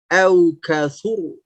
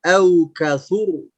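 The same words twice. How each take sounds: No difference in how they are said.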